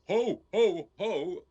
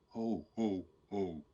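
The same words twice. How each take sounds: First: It is said loudly. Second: It is said softly.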